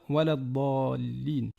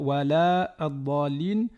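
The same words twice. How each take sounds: First: The vowel before the joined article stays short. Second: The vowel before the joined article is lengthened. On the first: The speaker calls it right. "on va plutôt dire" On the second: The speaker calls it wrong. "On ne va pas dire"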